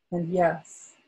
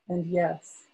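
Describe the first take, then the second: No difference in how they are said.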